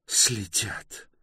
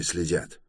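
First: High-pitched, indignant echo; flaring up. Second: Said in the usual way. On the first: A narrator's reading. Bayta reacting to being followed, flaring up. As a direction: throw the word back higher, mildly heated. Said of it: "вспылила Байта".

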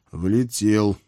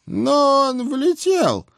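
First: Said in the usual way. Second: Put-on slow, high menacing old hag; drawn-out grim witch retort; stern old witch. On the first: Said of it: "подумал я". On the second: A narrator's reading. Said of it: "недобро сдвинув брови".

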